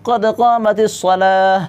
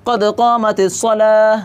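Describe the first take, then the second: The two takes are said the same way.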